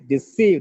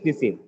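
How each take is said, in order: First: The second syllable is louder and longer. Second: No syllable gets extra force or length. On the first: The speaker calls it right. "here the second syllable is stressed" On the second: The speaker calls it wrong. "not just deceive"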